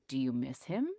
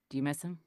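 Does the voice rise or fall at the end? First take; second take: rises; falls. First: The voice rises at the end like a question. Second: The voice falls at the end like a statement. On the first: It is asked openly as a question. "And I didn't say" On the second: The question is only implied. "I said"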